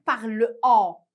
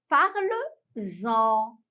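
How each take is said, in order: First: The words are said separately with no z sound. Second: A z sound links the two words together. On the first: The speaker calls it wrong. "Je ne peux pas dire parle en. ... ça m'écorche les oreilles" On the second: The speaker calls it right. "c'est plus joli à entendre quand on dit parle-en. On fait la liaison"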